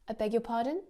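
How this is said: It sounds like a genuine question, rising at the end. The listener did not hear and wants it repeated. "that upward intonation at the end that you are asking a question, a genuine question"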